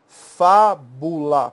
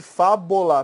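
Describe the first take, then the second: First: "fábula" very slow, loud first syllable, clear u in the middle. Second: "fábula" said as fá-bo-la, with o for u; wrong middle vowel. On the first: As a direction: stretch "fábula" out as fá-bu-la. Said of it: "proparoxítona". ("fábula" silabado, bem devagar, com u claro) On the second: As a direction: mispronounce "fábula" with an o after the b. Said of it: "Se você escrevesse". ("fábula" errado, com o no lugar do u: fábola) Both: Shown as a demonstration.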